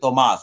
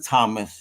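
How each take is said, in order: First: The name is pronounced the Spanish way. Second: The name is pronounced the English way. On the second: It is the form for a general audience. "for you folks, it's Major Thomas"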